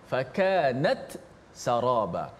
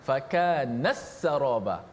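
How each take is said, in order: First: The t is pronounced clearly before the s. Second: The t is merged into the following s. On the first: "Maksudnya dijelaskan ta mati" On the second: "Itu idgham"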